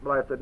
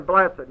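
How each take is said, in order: First: Said in the usual way. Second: "blessed" given weight, falling; stress on blessed. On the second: Shown as a demonstration. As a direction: lean on "blessed". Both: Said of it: "you'd emphasize the word blessed".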